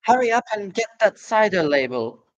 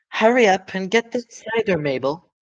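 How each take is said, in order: First: High calling woman's voice from upstairs. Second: High, louder woman calling out. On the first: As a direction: call down from the house above. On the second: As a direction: shout down from the house above. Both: Acted. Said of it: "the voice called".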